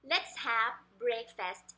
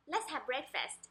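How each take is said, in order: First: Slow "Let's have breakfast", each word set apart. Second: Quicker, softer "Let's have breakfast", words run together; natural rhythm. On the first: Teacher models the sentence for parents, word by word. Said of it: "เราเอาจังหวะมา". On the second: Teacher shows the everyday rhythm, quick and linked. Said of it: "จริงๆ อย่างนี้ก็ได้นะคะ เราเอาจังหวะมา". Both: Shown as a demonstration.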